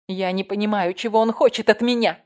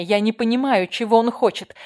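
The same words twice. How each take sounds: First: False fear. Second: Louder, higher panicked cry, gasping for air. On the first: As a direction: fake innocence over real animal fear. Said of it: "Тон её был лжив, фальшив и одновременно полон дикого животного страха". (фальшиво, со страхом) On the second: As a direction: plead in terror, out of breath. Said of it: "задыхалась". (испуганно, задыхаясь) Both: A narrator's reading.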